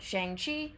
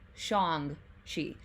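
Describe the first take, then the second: First: The name is said with an anglicized pronunciation. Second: The name is said closer to Mandarin pronunciation. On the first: The speaker calls it wrong. "that is like the American way of saying it" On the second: The speaker calls it right. "the proper pronunciation is"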